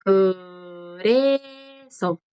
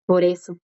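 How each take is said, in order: First: "Por eso" very slow, syllables held long; drawn-out teacher's model of "Por eso"; slow pronunciation demo. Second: Said in the usual way. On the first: Shown as a demonstration. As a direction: stretch each vowel of "Por eso" for learners. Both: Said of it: "Esta es la forma de decir".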